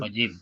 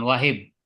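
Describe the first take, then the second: First: The middle consonant is a j sound. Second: The middle consonant is a soft h sound. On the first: The speaker calls it right. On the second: The speaker calls it wrong.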